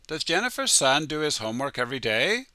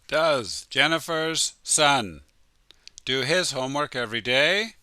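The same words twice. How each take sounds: First: The question is said very fast, words run together. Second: The question is said at a slow, careful pace.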